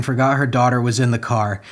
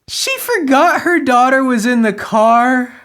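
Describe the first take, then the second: First: Said in the usual way. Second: High-pitched, raised-voice disbelief; incredulous. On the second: Real, not acted. Reader repeats the mother's excuse, high and incredulous. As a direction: throw the line back, high and astonished.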